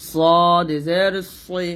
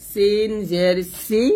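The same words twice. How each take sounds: First: সদ জের সই slow, thick and rounded; heavy sad. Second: সিন জের সি drawn out, thin and light; light seen. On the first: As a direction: lean heavily into সই. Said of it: "এটা মোটা করে বলতে হবে". (মোটা করে সদ জের সই) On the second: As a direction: stretch সি thin and high. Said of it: "সিন জের সি পাতলা". (পাতলা করে সিন জের সি) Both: Shown as a demonstration.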